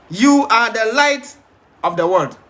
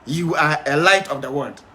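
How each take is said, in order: First: "the" in "You are the light" said slowly and leaned on, the phrase drawn out; stress on THE. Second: Said in the usual way. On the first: Shown as a demonstration. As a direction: hit the word "the" hard and slow to mark the article. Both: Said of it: "So he didn't say you are a light of the world".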